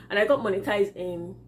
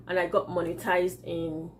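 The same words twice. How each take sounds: The two takes are said the same way.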